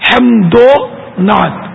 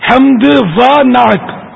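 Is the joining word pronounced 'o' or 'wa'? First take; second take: o; wa. First: The joining word is a short 'o' sound. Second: The joining word is a clear 'wa' sound. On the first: The speaker calls it right. "یعنی ایک طرح سے پیش کی آواز نکلی" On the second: The speaker calls it wrong. "یہ غلط ہو جائے گا"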